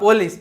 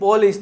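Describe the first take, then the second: The two takes are said the same way.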